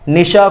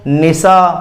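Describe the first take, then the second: First: The middle consonant is pronounced sh. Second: The middle consonant is pronounced s.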